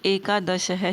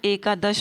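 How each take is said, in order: First: The word ends with an added breathy h sound. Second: The word ends without any added breathy sound. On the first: The speaker calls it wrong. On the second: The speaker calls it right.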